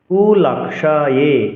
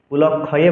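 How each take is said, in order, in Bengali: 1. মাঝের y ধ্বনিটি স্পষ্টভাবে উচ্চারিত হয়। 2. মাঝের y ধ্বনিটি নরম হয়ে প্রায় শোনা যায় না। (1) "ইয়কে স উচ্চারণ করতে হবে" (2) "কুলক্ষয়ে বলা যাবে না"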